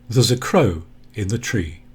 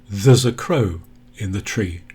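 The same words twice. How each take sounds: First: 'There is' is contracted into one syllable. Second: 'There is' is contracted into one syllable.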